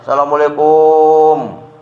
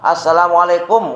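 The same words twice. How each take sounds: First: The final syllable 'kum' is drawn out long. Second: The final syllable 'kum' is kept short. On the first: The speaker calls it wrong. "Kumnya yang panjang. Salah" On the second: The speaker calls it right. "Udah gitu aja"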